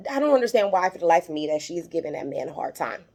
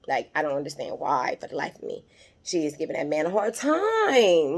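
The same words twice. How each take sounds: First: Said in the usual way. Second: "time" stretched long with a rising-falling swoop; emphatic repeat. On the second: Real, not acted. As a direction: draw out "time" in exasperated emphasis. Repeats it, stretching the last word.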